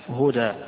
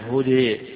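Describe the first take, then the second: First: The final vowel is an open 'a' sound. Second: The final vowel leans fully toward an 'e' sound. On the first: "إما الفتح" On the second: "وإما الإضجاع الإمالة"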